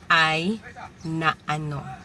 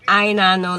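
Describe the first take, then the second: First: The words are said as separate syllables, unmerged. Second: The words are run together as one word. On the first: "It used to be" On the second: "like one straight word"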